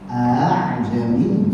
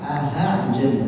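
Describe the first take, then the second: First: The middle sound is softened, with no h. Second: A clear h sound is inserted in the middle. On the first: The speaker calls it right. "sudah selesai" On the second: The speaker calls it wrong.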